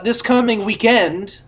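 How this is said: It is said in a British way.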